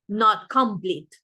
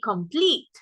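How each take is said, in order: First: The stress is on the first syllable. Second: The stress is on the second syllable. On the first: The speaker calls it wrong. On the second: The speaker calls it right. "we say complete"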